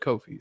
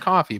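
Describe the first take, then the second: First: It starts with a long 'oh' vowel. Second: It sounds like the word coffee. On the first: The speaker calls it right. "Kofi themselves said Kofi. So, so it's like Kofi Kingston" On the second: The speaker calls it wrong. "Originally saw it as coffee"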